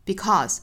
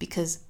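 First: The word is said fully, with no reduction. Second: The word is said weakly, short and reduced. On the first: The speaker calls it wrong. "不能读成 because" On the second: The speaker calls it right. "一般是要做虚词弱读"

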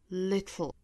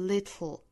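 First: The t is released sideways before the l. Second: The same.

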